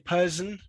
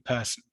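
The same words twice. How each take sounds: First: The middle consonant is a voiced z sound. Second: The middle consonant is a voiceless s sound. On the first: Some speakers elsewhere say it this way. "I wouldn't say person" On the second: British speakers say it this way. "It would definitely be the s sound"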